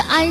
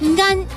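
First: The word starts with a plain vowel. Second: The word starts with an ng sound. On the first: The speaker calls it wrong. "不是安" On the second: The speaker calls it right. "恩和安一起"

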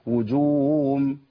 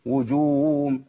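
First: The vowel swells like w and h is lost. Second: The same.

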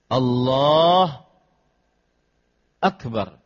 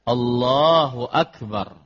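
First: The phrase is cut with a break between words. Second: The phrase flows on without any break between words. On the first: The speaker calls it wrong. "Ini dipotong" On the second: The speaker calls it right. "Maka hendaknya dengan urutan"

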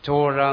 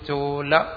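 First: The middle consonant is a retroflex ZH sound. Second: The middle consonant is a plain L sound. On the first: This is how it is said in Tamil. "തമിഴിൽ എങ്ങനെ ഉച്ചരിക്കുന്നത്? ... ചോഴ എന്ന് ഉച്ചരിക്കും" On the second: This is how it is said when pronounced the usual way here. "നമ്മൾ ഉച്ചരിക്കും ചോല"

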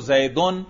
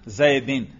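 First: The word ends in -un. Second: The word ends in -in. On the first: The noun is in the nominative case. "زیدن میں نے کیا پڑھا؟ رفع" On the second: The noun is in the genitive case. "اور زیدن میں نے کیا پڑھا؟ جر"

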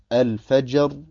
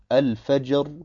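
The two takes are said the same way.

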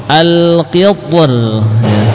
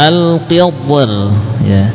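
The two takes are said the same way.

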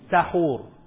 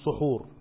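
First: The first vowel is a. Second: The first vowel is u. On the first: It means the food eaten before dawn. "اللي بناكله نفسه اسمه ايه؟" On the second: It means the act of eating before dawn. "هنقعد وناكل في وقت السحر اسمه سحور"

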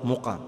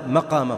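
First: The first vowel is a rounded 'u' sound. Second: The first vowel is an open 'a' sound. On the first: It is the noun of the four-letter verb. "فمصدره بالضم" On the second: It is the noun of the three-letter verb. "إذا كان الفعل ثلاثيا قام فمصدره بالفتح"

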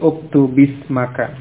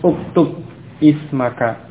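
First: The words are linked by an i vowel. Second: The words are separate, ending in a bare consonant. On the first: "menjadi uktubismaka" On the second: "Asalnya uktub ismaka"

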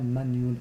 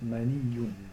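First: The y sound is short and single. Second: The y sound is doubled and held longer. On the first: The speaker calls it wrong. "On ne dit pas manioun" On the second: The speaker calls it right. "il y a une shedda à la fin. ... on dit maniyoun"

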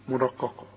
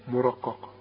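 The two takes are said the same way.

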